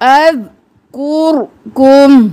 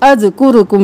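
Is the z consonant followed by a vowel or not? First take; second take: no vowel; vowel. First: No vowel follows the z sound. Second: A vowel follows the z sound. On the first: The speaker calls it right. "साकिन रखना है जा को भी और रो को भी" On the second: The speaker calls it wrong. "अज़कुरुकुम नहीं करना"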